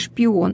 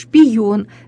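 First: The vowels follow each other with no consonant. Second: A y sound is inserted between the vowels. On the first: It is the standard pronunciation. The speaker calls it right. "вместо" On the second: It is a colloquial pronunciation. The speaker calls it wrong. "в просторечии такое произношение"

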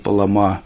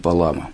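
First: The stress is on the last syllable. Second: The stress is on the middle syllable. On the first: "на последнем слоге" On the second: "на среднем слоге"

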